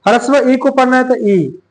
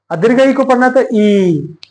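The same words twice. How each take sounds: First: ई clipped short and quick. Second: ई stretched out longer. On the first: Teacher showing students the short vowel ई. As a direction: say ई short, done at once. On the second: Teacher showing students the long vowel ई. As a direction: give ई extra time. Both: Shown as a demonstration. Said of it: "यहाँ पे time देना पड़ेगा".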